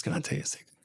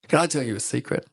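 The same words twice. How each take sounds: First: Much softer, secretive aside; retold confidence. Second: Said in the usual way. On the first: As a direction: drop the volume as if sharing a secret. Retold confidence, second take.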